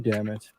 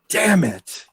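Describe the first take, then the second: First: It is said in a mild, calm way. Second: It is said in an upset, frustrated way. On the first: Something going wrong is only a small bother. "You're just like, "Oh damn it."" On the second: Something going wrong is truly upsetting. "It doesn't sound like"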